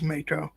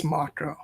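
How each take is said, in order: First: Mako said MAY-ko; childhood pronunciation. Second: Mako said MAH-ko; preferred pronunciation. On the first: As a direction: say Mako with a long "ay" first. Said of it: "I just assumed it was Mako". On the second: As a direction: give Mako an open "ah", Japanese style. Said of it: "I actually believe it's Mako". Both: Shown as a demonstration.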